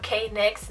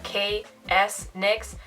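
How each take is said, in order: First: The name has no S sound before nix. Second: The S is said as a separate letter. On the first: "Not K-Nix" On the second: "not K-S-Nix"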